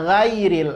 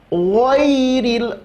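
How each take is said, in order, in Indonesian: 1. Bunyi pertamanya ringan dan tipis. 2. Bunyi pertamanya berat dan tebal. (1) "huruf gha tidak tebal" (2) "gha huruf tebal"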